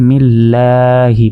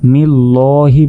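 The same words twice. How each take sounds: First: The L is said light and thin. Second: The L is said heavy and thick. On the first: The speaker calls it right. "এখানে জের থাকার কারণে এটা হচ্ছে বারিক" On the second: The speaker calls it wrong. "এখানে কিন্তু আমরা মিল্লাহি বলবো না"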